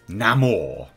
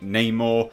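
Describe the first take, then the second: First: The name has a Latin pronunciation. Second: The name has an English pronunciation. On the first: "we have now a Latin pronunciation for Namor's name" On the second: "I'm saying Namor"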